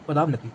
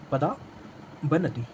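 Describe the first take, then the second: First: Said in the usual way. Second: पदावनति stretched very slowly, syllable by syllable; drawn-out word. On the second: Shown as a demonstration. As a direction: spell out पदावनति slowly and softly so students catch each sound. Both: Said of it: "तो वो कहलाता है हमारा पदावनति".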